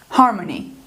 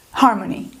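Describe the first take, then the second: No difference in how they are said.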